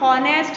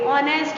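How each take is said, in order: First: It starts with an h sound. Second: It starts with a vowel, no h. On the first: The speaker calls it wrong. "इसको हम हॉनेस्ट नहीं पढ़ेंगे" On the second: The speaker calls it right. "ऑनेस्ट बोलेंगे। ठीक है, एच silent."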